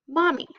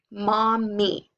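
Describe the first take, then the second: First: Said in the usual way. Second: "mommy" split evenly into mom, mee; syllable by syllable. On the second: Shown as a demonstration. Teacher reading two syllables to children, "mommy" split in two. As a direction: sound out "mommy" in two held beats. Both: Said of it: "now read your second syllable".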